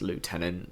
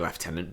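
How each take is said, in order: First: It is said with an American pronunciation. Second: It is said with a British pronunciation. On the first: "the Americans it's lieutenant" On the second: "we're English, so we should say lieutenant"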